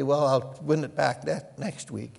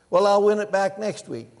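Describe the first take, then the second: First: Said in the usual way. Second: Louder, higher mock gambler; gambler's excuse. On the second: Preacher voicing the gambler's excuse, louder and higher. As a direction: brush it off like a gambler sure of his luck. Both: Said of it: "he would say".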